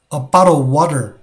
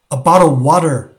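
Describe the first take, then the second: The two takes are said the same way.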